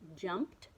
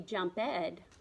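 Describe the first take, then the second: First: The ending is a short T sound. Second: The ending is an extra syllable, ed. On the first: The speaker calls it right. "that ed kind of makes a T sound in jumped" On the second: The speaker calls it wrong. "I wouldn't say jump ed"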